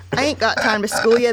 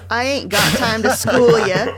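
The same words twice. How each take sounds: First: Said in the usual way. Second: A hammed-up Baltimore accent, a bit louder. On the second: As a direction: put on a mock Baltimore accent to read grandpa. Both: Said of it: "Can you read it in a Baltimore accent?".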